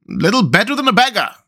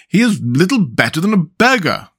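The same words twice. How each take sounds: First: Much higher, fawning echo; echoing councillors. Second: Higher, lightly hammed self-important mayor; pompous mayor. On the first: Councillors echoing the mayor, high fawning echo. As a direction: eagerly parrot the mayor. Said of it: "cried the town councillors". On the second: Mayor judging the statue, mildly pompous. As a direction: sniff at it like a snob. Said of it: "said the mayor". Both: A narrator's reading.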